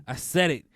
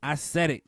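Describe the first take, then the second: No difference in how they are said.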